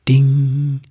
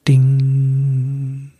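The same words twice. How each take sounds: First: Bright ringing bell sound; sung bell chime; bell ding. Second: Drawn-out ringing bell sound; long sung bell chime; long bell ding. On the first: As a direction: ring it out like a tiny silver bell. Silver bell rings in story. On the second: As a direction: let the bell ring and fade. Bell rings again, held longer. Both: Acted.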